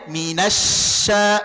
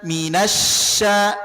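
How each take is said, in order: Both takes have the same delivery.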